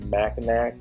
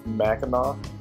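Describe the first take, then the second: First: The name ends with a hard k sound. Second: The name ends without a k sound. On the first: The speaker calls it wrong. "you probably might have pronounced it Mackinac ... because it ends in a C" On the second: The speaker calls it right. "correct way to pronounce it is Mackinac"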